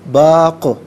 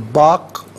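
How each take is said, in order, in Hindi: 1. अंतिम q गूँजती उछाल के साथ खत्म होता है। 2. अंतिम q सपाट रुकता है, कोई उछाल नहीं।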